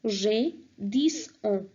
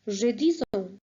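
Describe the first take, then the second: First: "J'ai dix ans" slow, each word clear; slow French model. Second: Said in the usual way. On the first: Shown as a demonstration. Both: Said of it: "So here you'll say".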